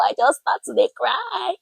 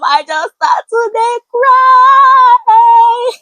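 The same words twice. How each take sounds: First: Said in the usual way. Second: Very high, loud, slow mock wailing; hammed-up wail. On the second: Telling how she broke down when the pastor asked, in a slow hammed-up wail. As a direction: drag it out in an exaggerated sob. Retells breaking down.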